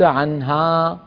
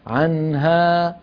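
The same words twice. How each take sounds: First: The final vowel is said with an exaggerated open mouth. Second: The final vowel is said with moderate mouth opening. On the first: The speaker calls it wrong. "وليس عنها" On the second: The speaker calls it right. "عدم المبالغة في فتح الفم عند الألفات"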